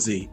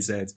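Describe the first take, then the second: First: The letter is said the American way, zee. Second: The letter is said the British way, zed.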